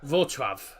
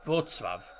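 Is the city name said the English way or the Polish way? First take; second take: Polish; Polish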